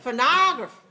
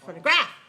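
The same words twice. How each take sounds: First: The stress is on the second syllable. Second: The stress is on the third syllable. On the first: "Second one?" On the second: "Third one?"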